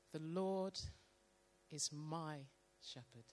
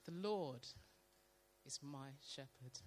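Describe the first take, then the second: First: Slow reading. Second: Slow, fading reading. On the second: Reading scripture slowly aloud to the church, softly. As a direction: read slowly, letting it sink in. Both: Shown as a demonstration. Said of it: "read it very slowly".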